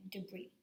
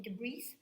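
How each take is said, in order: First: "debris" ending on a vowel, "de-bree"; silent final S. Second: "debris" with the last s sounded, "de-breess"; pronounced final S. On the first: Teacher shows how French-derived words are said, "debris" with silent s. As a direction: leave the s off the end of "debris". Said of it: "We're saying debut and debris". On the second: Teacher shows what we are not saying, "debris" with an audible s. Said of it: "We are not saying debris". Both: Shown as a demonstration.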